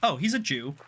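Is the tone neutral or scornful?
neutral. It is said in a casual, neutral tone. It is just a harmless statement of fact. "it's no big deal"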